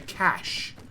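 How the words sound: It is said with the non-Australian pronunciation. "the rest of the world seems to say cache"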